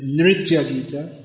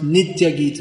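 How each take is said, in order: First: The first word has an r after n. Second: The first word has no r after n. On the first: This is the standard way of saying it. The speaker calls it right. "But it's Nritya Gita" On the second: This is the regional way of saying it. The speaker calls it wrong. "that's the Bengali way of pronouncing it"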